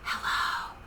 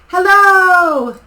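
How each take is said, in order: First: It is said very softly. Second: It is said very loudly.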